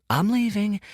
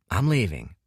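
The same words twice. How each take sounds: First: Much higher, soothing back-off; placating retreat. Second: Said in the usual way. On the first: Acted. Dorian backs away from furious Kuruk, placating and high. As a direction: ease away like from a spooked lion.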